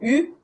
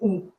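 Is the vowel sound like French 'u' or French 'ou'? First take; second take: u; ou. First: The vowel sounds like French 'u'. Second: The vowel sounds like French 'ou'. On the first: The speaker calls it wrong. "donc pas un U" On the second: The speaker calls it right. "c'est un ou"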